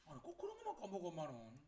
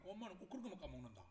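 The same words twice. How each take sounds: First: Aggrieved complaint. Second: Said in the usual way. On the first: Acted. Child complaining about forgetful mum, aggrieved. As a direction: grumble quickly in a raised pitch. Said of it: "억울하겠죠?".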